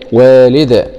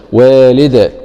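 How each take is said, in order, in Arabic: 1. تنتهي الكلمة بدال مقلقلة في الآخر. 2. تنتهي الكلمة بدال مقلقلة في الآخر.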